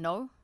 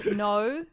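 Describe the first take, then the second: First: The word is said with an American accent. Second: The word is said with an Australian accent. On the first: "that American?" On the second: "In Australian, it's"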